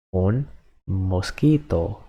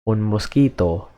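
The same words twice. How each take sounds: First: Un mosquito said slowly and softly, each syllable clear; slow teaching repeat. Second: Said in the usual way. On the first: Shown as a demonstration. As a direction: spell out Un mosquito slowly for the learner.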